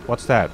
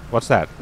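No difference in how they are said.

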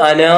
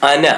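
First: അനാ with a long drawn-out final aa, as the spelling suggests; long final vowel. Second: അന said with a short clipped final a, alif left silent; short final vowel. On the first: Teacher shows the written spelling അനാ with a long aa. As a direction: stretch the end of അനാ into a long aa. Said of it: "അവസാനം ഒരു അലിഫ് ഇല്ലേ?". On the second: Teacher gives the correct reading അന with a short a. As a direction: keep the end of അന short. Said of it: "അന എന്നാണ് നമ്മൾ വായിക്കേണ്ടത്". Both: Shown as a demonstration.

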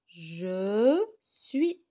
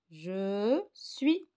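First: "Je suis." with a loud, drawn-out "Je"; emphatic first take. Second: Said in the usual way. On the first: Shown as a demonstration. Teacher modelling the answer, "Je" stressed loud. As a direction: lean on "Je" and let it fall. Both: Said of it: "on va écrire là, je suis".

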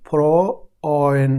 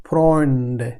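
First: ফ্রয়েন drawn out very slowly, each sound clear; slow pronunciation. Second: ফ্রয়েন্ডে said clearly with the অয় vowel; German word demo. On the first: Teacher repeating the German word slowly for students. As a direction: spell out ফ্রয়েন slowly for learners. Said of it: "আমি বলি". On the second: Teacher saying the German word once, careful demo. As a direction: model ফ্রয়েন্ডে at normal pace. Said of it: "আমি বলি ফ্রয়েন". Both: Shown as a demonstration.

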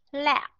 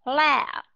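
First: "La" clipped short on a silent p; short vowel, voiceless ending. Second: "La" held long, then lips closed for b; long vowel, voiced ending. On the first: Teacher asking students to listen, short voiceless ending. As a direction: stop "La" quickly with closed lips. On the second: Teacher asking students to listen, long voiced ending. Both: Shown as a demonstration. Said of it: "Ok, nghe nha".

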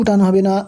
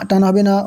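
Both takes have the same delivery.

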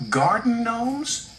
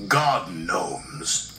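First: High, slow, rising question; incredulous high-voiced little engine; surprised question. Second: Low, slow, knowing pronouncement; deliberate low-voiced authority figure; boss explaining. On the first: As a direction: echo it in puzzled surprise. Percy echoes in surprise. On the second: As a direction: state it slowly and firmly, falling. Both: A narrator's reading.

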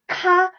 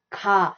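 First: "ka" with a hard, strongly aspirated K. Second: "ka" with a soft onset, near GA. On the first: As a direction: hit "ka" with a puffy English K. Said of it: "instead of K A". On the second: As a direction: ease "ka" toward a G sound. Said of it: "it is G A". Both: Shown as a demonstration.

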